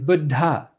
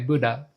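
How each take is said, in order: First: A doubled d with an aspirated second d. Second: A single unaspirated d sound is used. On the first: The speaker calls it right. "The correct way is" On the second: The speaker calls it wrong. "the American way, there's only one D, one consonant, and it's not aspirated"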